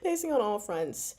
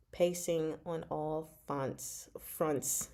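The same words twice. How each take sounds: First: "fronts" said clearly with the r; corrected. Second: "fonts" said without the r, then caught; slip of the tongue. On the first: Correcting her slip for viewers, saying "fronts" properly. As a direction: say "fronts" cleanly, r and all. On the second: Reading her review notes, slipping on "fonts". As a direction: trip on "fonts" before fixing it to "fronts". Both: Real, not acted. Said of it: "I said fonts".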